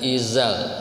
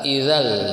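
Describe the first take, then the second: First: The middle consonant is a buzzing 'z' sound. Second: The middle consonant is a soft 'dh' sound. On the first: The speaker calls it wrong. "bukan izal" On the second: The speaker calls it right. "za za itu ujung lidah seperti sa"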